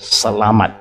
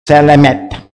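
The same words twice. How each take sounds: First: The last syllable sounds like 'mat'. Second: The last syllable sounds like 'met'. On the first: The speaker calls it right. "Now he pronounced it correctly" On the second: The speaker calls it wrong. "because M A T for them is met"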